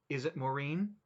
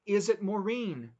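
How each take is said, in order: First: Said in the usual way. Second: Shouted louder and higher, slower; panicked shout at her husband on the phone. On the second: Acted. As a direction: yell it down the phone line. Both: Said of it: "Don't shout".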